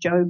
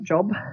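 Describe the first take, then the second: First: The vowel is a long 'oh' sound. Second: The vowel is a short 'o' sound. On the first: It is the name of the man in the Bible. The speaker calls it right. "J-O-B, Job" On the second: It is the ordinary word for work. The speaker calls it wrong. "not Job"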